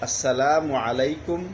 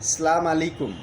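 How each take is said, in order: First: The first word is said in full as 'assalamu'. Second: The first word is said as 'salam' without 'as'. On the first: It wishes peace upon the listener. The speaker calls it right. "সঠিক উচ্চারণটা হলো" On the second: It wishes divine wrath upon the listener. The speaker calls it wrong. "তিন নম্বরে সালাম আলাইকুম"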